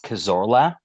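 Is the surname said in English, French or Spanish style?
English. The surname is said with an English accent. "in an English way"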